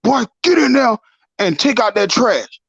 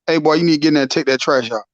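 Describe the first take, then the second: First: Stern dad order. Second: A dad's order rattled off fast and low-key; quick dad order. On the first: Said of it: "even if your dad tell you". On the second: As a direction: reel it off quickly like a busy dad. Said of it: "Or he say". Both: Retold or imitated.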